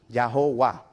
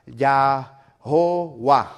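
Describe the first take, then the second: First: Said in the usual way. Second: "Yahová" slow, loud, every syllable drawn out; old form Yahová. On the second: Shown as a demonstration. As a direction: say "Yahová" slowly and forcefully. ("Yahová" lento, fuerte y alargado) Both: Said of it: "Esa fue la primera versión".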